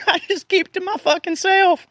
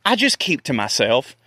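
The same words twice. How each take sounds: First: Much higher comic voice; hammed-up high-pitched repeat; mock squeaky. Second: Said in the usual way. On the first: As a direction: squeak it out like a cartoon. Repeats his line in a put-on voice. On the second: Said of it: "repeated in a funny voice".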